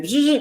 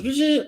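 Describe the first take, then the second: First: High rising buzz of the mask closing; quick buzz like a motor snapping shut; imitating a mask closing with a buzz. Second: High buzzing imitation of a motorized mask opening; imitating a mask opening with a buzz. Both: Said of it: "the mask goes".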